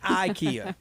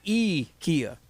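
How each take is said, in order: First: It is said the usual American way. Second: It is said the Swedish way. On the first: The speaker calls it wrong. "not IKEA" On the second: The speaker calls it right. "It's E Kia"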